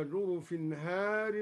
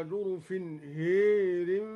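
First: Said in the usual way. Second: هير drawn out long and loud, the a leaning to e; imala on har. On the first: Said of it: "ألف هار هكذا". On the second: Shown as a demonstration. Teacher shows al-Duri's imala, stretched for the class. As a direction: stretch هير and let the vowel tilt towards e. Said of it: "أمال الدوري ألف هار هكذا".

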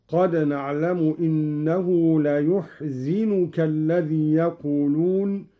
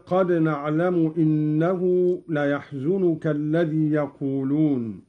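First: ليحزنك as "layuḥzinuka"; Qalun reading. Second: ليحزنك as "layaḥzunuka"; Hafs reading. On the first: Teacher shows Qalun's reading. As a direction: say ليحزنك with u on ya and i on zay. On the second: Teacher recites the Hafs reading before Qalun's. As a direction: say ليحزنك with a on ya and u on zay. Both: Shown as a demonstration. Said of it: "بضم الياء وكسر الزاي".

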